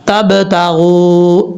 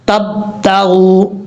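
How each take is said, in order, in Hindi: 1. 'b' को एक छोटी गूंजती उछाल के साथ छोड़ा जाता है। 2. 'b' को बिना छोड़े बंद रखा जाता है। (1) "जैसे ही मिलेंगे फौरन उनको वापस छोड़ देना है।" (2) "कई लोग ऐसे पढ़ते हैं, ये गलत तरीका है। कलकला नहीं हो रहा"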